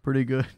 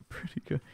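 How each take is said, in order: First: Said in the usual way. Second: Breathy whispered words through a laugh. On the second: Acted. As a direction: whisper it while chuckling. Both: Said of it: "that's pretty good".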